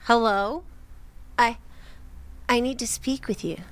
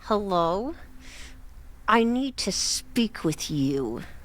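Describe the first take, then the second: First: It is said in a normal voice. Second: It is said through clenched teeth.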